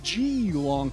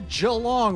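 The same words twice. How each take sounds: First: It is said the American way. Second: It is said the local Australian way.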